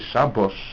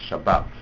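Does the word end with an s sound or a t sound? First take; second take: s sound; t sound. First: The word ends with an s sound. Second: The word ends with a t sound. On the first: "But if you say Shabbos and Bas, don't rhyme" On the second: "it only rhymes if you pronounce Shabbos Shabbat. Then it rhymes with Bat"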